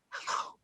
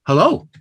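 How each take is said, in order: First: Whispered hello, still stressed on lo; whispered hello with the second syllable stressed. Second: Hello with the second syllable heavy and rising; hello, weak he, strong lo; stress on LO. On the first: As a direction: breathe it, keep the weight on "lo". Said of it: "works just as well if you whisper". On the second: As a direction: lean on the "lo" of hello. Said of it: "you hear that the low is heavier". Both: Shown as a demonstration.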